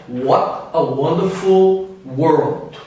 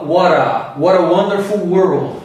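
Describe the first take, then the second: First: Very slow, lower British accent with crisp T; measured British delivery, each word separate. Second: American linking, "What a" with T between R and D; slow American delivery, flap the T into the vowel; American accent. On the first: Teacher contrasting with the American version, British accent. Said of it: "Já o britânico falaria". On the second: Teacher demonstrating linked words, American accent. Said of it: "ele fala". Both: Shown as a demonstration.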